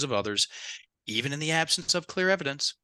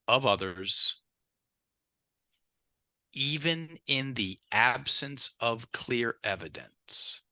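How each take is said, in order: First: It is read at a faster pace. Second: It is read at a slower pace.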